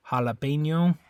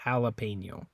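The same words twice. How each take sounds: First: Jalapeno with a Spanish ha, ha-la-PEH-nyo; Spanish-style jalapeno, crisp vowels. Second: Jalapeno with a flat English a, ha-luh-PAY-no; anglicized jalapeno, relaxed vowels. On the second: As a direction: say jalapeno the American way. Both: Shown as a demonstration. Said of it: "pronunciation is slightly different on that one between English and Spanish".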